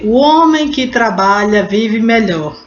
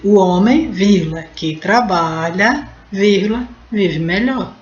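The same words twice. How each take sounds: First: Said in the usual way. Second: "O homem, que trabalha, vive melhor" with clear pauses and a rise at each comma. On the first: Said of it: "se você lê". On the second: Shown as a demonstration. Teacher showing the class the commas in "O homem, que trabalha, vive melhor". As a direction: set off "que trabalha" with pauses on both sides. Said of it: "você também pode dizer".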